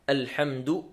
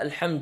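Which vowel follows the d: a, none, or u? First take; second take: u; a. First: The d is followed by the vowel u. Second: The d is followed by the vowel a. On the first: The speaker calls it right. "نضم حرف الدال" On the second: The speaker calls it wrong. "ولا بفتحها"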